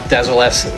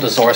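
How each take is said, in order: First: The name is said with an L sound. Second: The name is said with an R sound. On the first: This is how the current game pronounces it. "In this, it's pronounced uh, Dazolus" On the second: This is how an older game pronounced it. "I always call it Dazorus because I, I was big in uh, Phantasy Star one"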